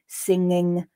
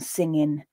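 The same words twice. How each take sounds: First: The word ends with an ng sound. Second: The word ends with a plain n sound.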